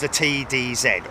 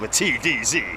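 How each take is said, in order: First: The letter Z is said the non-American way. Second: The letter Z is said the American way.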